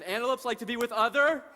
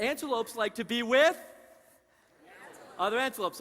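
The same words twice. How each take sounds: First: "other?" left hanging with a rise for the crowd; fill-in prompt. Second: Said in the usual way. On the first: Shown as a demonstration. Presenter prompting the audience to finish the sentence, rising on "other?". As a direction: pause on "other?" so the audience shouts the rest. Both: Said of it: "Let's try that again".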